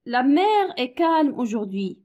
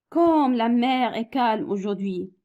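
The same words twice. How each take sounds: First: Said in the usual way. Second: "Comme" opens the line with weight, slow and even; exclamative reading. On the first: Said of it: "لي فراز". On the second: Shown as a demonstration. Teacher reading an exclamative sentence to pupils, slow, stressing "Comme". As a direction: read "Comme la mer est calme aujourd'hui" slowly, leaning on "Comme". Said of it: "كلمات اللي كيدلوا على التعجب بحال كال وكوم".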